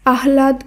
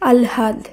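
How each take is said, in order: First: The h sound comes before the l sound. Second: The l sound comes before the h sound. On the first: The speaker calls it wrong. "আহ্লাদ করলেও সেটি হবে ভুল উচ্চারণ" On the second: The speaker calls it right. "শব্দটির শুদ্ধ উচ্চারণ হবে আলহাদ"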